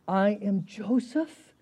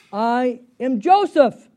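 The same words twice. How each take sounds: First: Slow, measured declaration at moderate volume; drawn-out, restrained announcement of identity; slow reveal. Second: Loud, slow, high declaration; booming slow announcement of identity; dramatic reveal. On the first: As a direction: reveal who you are slowly, without shouting. Rereads the reveal more gently. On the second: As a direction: proclaim who you are, drawing out each word. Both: Acted.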